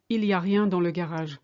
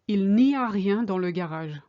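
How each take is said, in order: First: No n sound is heard before 'y a'. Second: An n sound is heard before 'y a'. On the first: This is the casual everyday way of speaking. "we tend to say il y a rien" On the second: This is the proper, careful way of speaking. "if you want to speak properly"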